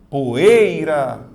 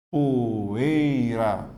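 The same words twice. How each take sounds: First: Poeira with the E punched loud; stress on the E. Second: Poeira said as three separate syllables, po-e-i-ra; split into syllables. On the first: Teacher showing the class that the E in poeira is stronger, loud stress. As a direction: hit the E in poeira hard. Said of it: "a letra E é mais forte". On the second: Teacher to students, splitting poeira into syllables. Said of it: "São três sílabas". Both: Shown as a demonstration.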